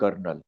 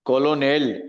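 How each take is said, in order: First: It is said with two syllables, like kernel. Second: It is said with three syllables, like ko-lo-nel. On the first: The speaker calls it right. "કર્નલમાં આર આવતો જ નથી ને બોલાય છે કર્નલ" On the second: The speaker calls it wrong. "તમે વાંચવા જાવ તો કોલોનેલ થાય"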